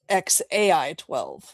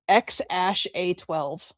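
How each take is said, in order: First: The symbol after X is said as 'A I'. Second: The symbol after X is said as 'ash'. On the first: This is the mother's way of saying the name. "[name], who's [name]'s mother, says it's" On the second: This is the father's way of saying the name. "Elon pronounces it"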